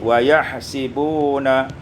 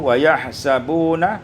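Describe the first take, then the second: First: The vowel after the s is i. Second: The vowel after the s is a.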